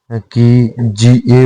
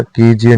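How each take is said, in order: First: कीजिए slow, syllable by syllable; correct form. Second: कीजिए as "kejie"; incorrect form. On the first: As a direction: stretch कीजिए as "kee-ji-ye". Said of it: "होता है". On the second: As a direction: say कीजिए briefly with loose first vowel. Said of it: "नहीं होता". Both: Shown as a demonstration.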